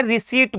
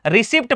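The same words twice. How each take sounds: First: रिसीट with silent p; long ee straight into t in रिसीट; right pronunciation. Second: रिसिप्ट with the p sounded; short vowel and audible pt ending in रिसिप्ट; wrong pronunciation. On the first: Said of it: "इसको क्या बोलते हैं". (रिसीट, 'प' चुप रखकर) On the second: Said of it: "गलत ही बोलते हैं". (रिसिप्ट में 'प' बोलकर गलत उच्चारण) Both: Shown as a demonstration.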